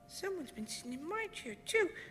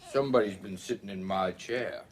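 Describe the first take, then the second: First: It is said in a wee small voice. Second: It is said in a great big voice.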